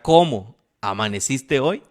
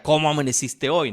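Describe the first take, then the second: First: A curt, louder ¿Cómo amaneciste hoy? with a rise on "cómo"; irritated question. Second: Different tone. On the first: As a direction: ask it fed up, on the edge of a breakup. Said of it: "en una etapa crítica de su matrimonio". (esposo harto preguntando "¿Cómo amaneciste hoy?" con fastidio) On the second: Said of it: "pero era de otra manera". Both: Shown as a demonstration.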